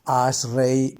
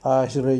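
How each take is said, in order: First: The word ends in an 'ei' glide. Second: The word ends in a plain 'e' vowel. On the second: "normalmente se dice"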